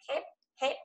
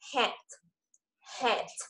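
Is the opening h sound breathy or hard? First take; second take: hard; breathy. First: The h is hard with no breath. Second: The h is soft with a puff of breath. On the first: "cố không để hơi" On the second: "tức là nó ra hơi"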